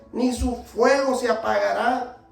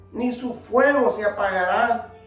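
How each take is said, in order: Both takes have the same delivery.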